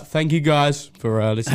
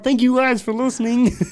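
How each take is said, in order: First: It is said in the speaker's ordinary voice. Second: It is said in a put-on puppet-like voice.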